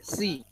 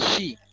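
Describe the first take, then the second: First: The s sound is light and plain. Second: The s sound is made as sh. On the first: "Bukan pakai si" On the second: "Bukan juga shi"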